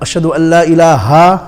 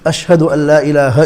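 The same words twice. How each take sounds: First: The final ha is stretched long. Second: The final ha is kept short. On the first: The speaker calls it wrong. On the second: The speaker calls it right.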